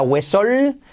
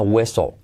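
First: "huesol" with a long, full L at the end; wrong, full L. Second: "hueso" with only a trace of final L; barely any L. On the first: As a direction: hold the final L of "huesol". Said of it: "no sería huesol". («huesol» con una L final muy marcada) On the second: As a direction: let the end of "hueso" almost lose its L. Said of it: "una pizquita de L al final". («hueso» con apenas una pizca de L final) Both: Shown as a demonstration.

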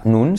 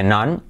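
First: "nun" with a Spanish U, "noon"; wrong vowel. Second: "nan" with an open A, not U; correct vowel. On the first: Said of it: "esa nun, se dice nan". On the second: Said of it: "se dice nan". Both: Shown as a demonstration.

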